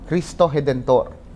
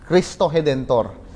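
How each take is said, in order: Both takes have the same delivery.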